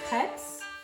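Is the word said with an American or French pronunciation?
French. It is said with a French-style pronunciation.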